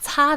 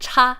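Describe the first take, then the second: First: The word begins with a 'ts' sound. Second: The word begins with a 'ch' sound. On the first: The speaker calls it right. "it was 擦 this whole time" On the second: The speaker calls it wrong. "My Shanghainese ass thought it was cha"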